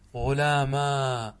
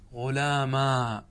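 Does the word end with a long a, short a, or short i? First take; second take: long a; long a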